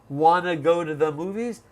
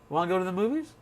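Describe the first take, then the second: First: The phrase is said slowly with clear words. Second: The phrase is said fast with blended words.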